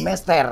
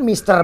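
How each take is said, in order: First: The first vowel is an open 'eh' sound. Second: The first vowel is a closed 'ee' sound. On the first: This is how Betawi locals say the name. "Kalau orang Betawi bilang jadi Mester" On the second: This is the original form of the name. "namanya kan Mister bener"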